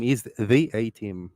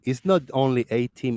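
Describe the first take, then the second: First: Slow, "the" drawn out as "thee"; "the" as an emphatic "thee"; stress on THE. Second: Said in the usual way. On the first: Shown as a demonstration. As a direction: dwell on "the" before A-Team. Contrasts name with title.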